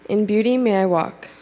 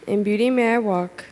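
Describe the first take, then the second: No difference in how they are said.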